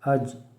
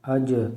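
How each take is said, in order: First: The final consonant stops flat without an echo. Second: The final consonant is released with an echoing bounce. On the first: "बग़ैर कलकला के" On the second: "कलकला के साथ"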